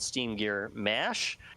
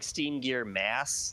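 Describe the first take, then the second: First: The last word ends with an sh sound. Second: The last word ends with an s sound. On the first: It is the character's quirky pronunciation. "he always pronounces S's like S H's" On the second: It means a massive bulk. "it's really supposed to be like Steam Gear Mass"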